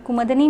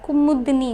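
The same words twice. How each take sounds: First: कुमदनी with no vowel after म, kum-dani; wrong form कुमदनी, m runs straight into d. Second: कुमुदनी with a short उ after म, ku-mu-dani; correct form. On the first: Teacher showing students the wrong form, no u after m in कुमदनी. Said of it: "कुमदनी नहीं होता है". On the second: Teacher giving students the correct form, ku-mu-dani in कुमुदनी. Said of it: "कुमुदनी होता है". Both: Shown as a demonstration.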